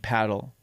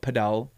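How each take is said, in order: First: It is said with an American pronunciation. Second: It is said with a Spanish pronunciation. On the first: This is how people in the States say it. "but in the States it would be paddle" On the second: This is the local name used where the speaker lives. "a sport we play down here is padel, and it's called padel"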